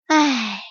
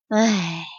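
First: Sigh. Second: Lower, softer sigh; a deflated little sigh. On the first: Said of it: "叹了口气说". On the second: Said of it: "也叹了口气说". (低声叹气) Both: Acted.

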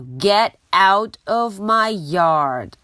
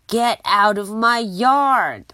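First: Slow, louder angry yell. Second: Louder shout with the stress on yard; angry yell. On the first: Angry neighbour yelling at the pig in her yard. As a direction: bark it at the pig again. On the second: Angry neighbour chasing the pig out of her yard. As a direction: make the word yard land hard. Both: Acted. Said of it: "Eugenia真的很生气".

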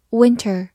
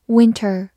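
Both takes have the same delivery.

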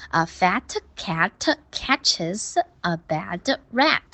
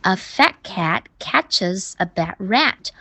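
First: "fat cat", "bad rat" with an extra uh after each t and d; heavy final consonants. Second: "fat cat", "bad rat" slowly with unreleased t and d; slow model, dropping the endings of "fat" and "bad"; light endings. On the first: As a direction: mimic a student over-releasing every ending in "fat cat". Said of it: "你的尾音发得太重啦". (模仿学生把 fat、cat、bad、rat 的尾音读得太重) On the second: Shown as a demonstration. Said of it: "尾音要轻轻地发". (慢读示范，fat、bad 的尾音轻轻带过)

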